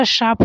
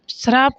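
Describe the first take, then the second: First: श्राप said as "shaap", r dropped; correct without r. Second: श्राप with an r, "shraap"; wrong added r. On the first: Teacher giving the real word, correct without r. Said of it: "श्राप होता है वैसे". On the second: Teacher rejecting a common misspelling, wrong added r. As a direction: sound the r in श्राप. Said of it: "श्राप नहीं होता". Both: Shown as a demonstration.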